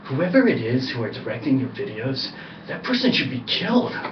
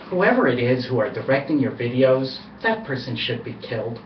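First: It is said angrily. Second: It is said without anger.

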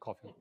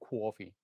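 First: The word is said with a neutral accent. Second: The word is said with a New York accent. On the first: This is how the friend does not say it. "not coffee" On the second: This is how the friend from New York says it. "My friend is from New York, right? So he says coffee"

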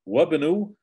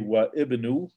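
First: The i vowel is dropped, linking wa into bnu. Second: The i vowel is pronounced separately after wa. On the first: The speaker calls it right. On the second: The speaker calls it wrong.

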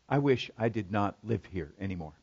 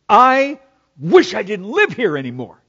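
First: It is said in a calm, measured tone. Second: It is said in a heated, defiant tone.

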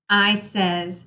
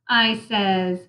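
The two takes are said the same way.

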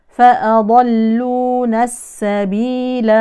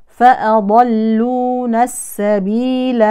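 The two takes are said the same way.

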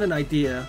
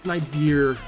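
First: Idea ends in a plain vowel, no R. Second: Idea ends with an added R sound. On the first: "Not an idea" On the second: "we add R's when they're not supposed to be there"

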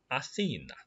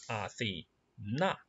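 First: The stress is on the middle syllable. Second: The stress is on the last syllable. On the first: It is the name of the city. "城市名字重音在中间，叫" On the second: It is a girl's name. "女孩子Athena。重音在最后"

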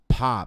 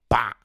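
First: The p is released with a puff of air. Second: The p is released without a puff of air. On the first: This is the English way. "Em inglês seria" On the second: This is the Portuguese way. "o nosso P, esse P, esse P batido"

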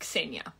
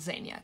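First: The name begins without a Z sound. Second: The name begins with a Z sound. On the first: The speaker calls it right. "My name is pronounced Xenia; There's no Z sound" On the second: The speaker calls it wrong. "not Xenia"

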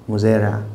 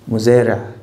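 No difference in how they are said.

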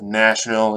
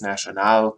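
First: The stress is on the first syllable. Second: The stress is on the last syllable. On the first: This is the usual English pronunciation. The speaker calls it right. "So instead of national" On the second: This is how a speaker of French or Spanish might say it. The speaker calls it wrong. "it's national or something like that"

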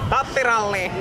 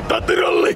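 First: It is said in an ordinary speaking voice. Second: It is said in a growling death-metal voice. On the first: "sillä äskeisellä äänensävyllä" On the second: "semmonen death metal"

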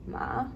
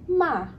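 First: The pitch rises like a question. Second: The pitch falls sharply from high. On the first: "second tone, ma, like you're asking a question, it goes up" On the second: "fourth tone"

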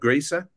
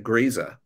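First: The middle consonant is an S sound. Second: The middle consonant is a Z sound.

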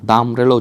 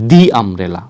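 First: 'The' is said with a short 'thuh' vowel. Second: 'The' is said with a long 'thee' vowel. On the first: The speaker calls it wrong. "দা umbrella উচ্চারণ করবেন না" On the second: The speaker calls it right. "আপনারা উচ্চারণ করবেন দি umbrella"

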